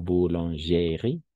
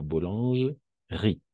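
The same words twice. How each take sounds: First: Boulangerie with every e sounded, slow; wrong pronunciation. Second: Boulangerie with the middle e silent, slow; correct pronunciation. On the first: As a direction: say boulangerie as bou-lan-ge-rie, sounding the middle e. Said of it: "Pas boulangerie". (boulangerie lenta, pronunciando la e) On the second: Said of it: "sino boulangerie". (boulangerie lenta, con la e muda) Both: Shown as a demonstration.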